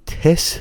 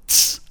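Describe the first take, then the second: First: A short vowel separates the t and s. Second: The t and s blend into one sound. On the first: The speaker calls it wrong. "اما این تس نیست" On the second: The speaker calls it right. "تس هستش"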